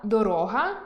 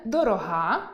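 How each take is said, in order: First: Дорога stressed on о, доро́га; stress on the middle syllable. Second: Дорога stressed on the final а, дорога́; stress on the last syllable. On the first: Teacher contrasting доро́га, the road. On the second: Teacher contrasting дорога́, dear. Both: Shown as a demonstration. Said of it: "Скажімо, слова".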